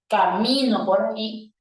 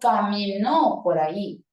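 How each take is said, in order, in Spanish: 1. La tónica está en la sílaba del medio. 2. La tónica está en la última sílaba. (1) "Si yo la pronuncio como una palabra grave" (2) "si la pronuncio como aguda, yo digo"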